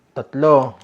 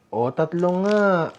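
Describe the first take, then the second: First: Counting out loud. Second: Slow confirmation. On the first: Counting the food aloud. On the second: Confirming the count slowly. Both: Acted.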